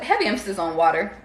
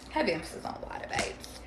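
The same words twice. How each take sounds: First: Louder "heavy emphasis on water", leaning on "water". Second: Softer aside, dropping away; quiet repeat. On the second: Softer repeat of the same remark. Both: Pretend.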